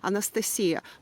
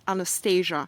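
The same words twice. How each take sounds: First: The name is said with a Russian pronunciation. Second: The name is said with an English pronunciation. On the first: "In Russian, correct, it's to say Anastasia. That's how we uh, say that name" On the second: "But in English, uh, it's pronounced as Anastasia"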